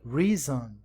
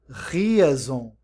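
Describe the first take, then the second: First: It begins with a rounded, W-like R. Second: It begins with a throaty, Portuguese-style R. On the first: The speaker calls it right. "mas reason" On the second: The speaker calls it wrong. "Aqui a gente não pronuncia reason"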